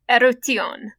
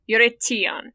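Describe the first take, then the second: First: The vowels follow an ancient Greek pronunciation. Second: The vowels follow an American English pronunciation. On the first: "the super ancient Greek way you could say it is" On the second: "the Americanization version of that is"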